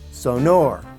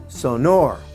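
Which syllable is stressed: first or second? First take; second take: second; second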